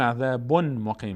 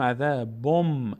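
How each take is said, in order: First: عذابون with clear n before مقیم; unmerged tanwin. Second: عذابم ending on a long hummed m; tanwin merged into mim. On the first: Teacher shows what is not said, عذابون with full n. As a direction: keep the n of عذابون apart from مقیم. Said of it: "نمیگیم عذابون مقیم". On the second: Teacher shows correct recitation, عذابم with lengthened m. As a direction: turn the final n into held m in عذابم. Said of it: "میگیم عذابم". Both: Shown as a demonstration.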